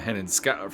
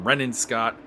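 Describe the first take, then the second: First: The name begins with an H sound. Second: The name begins with an R sound.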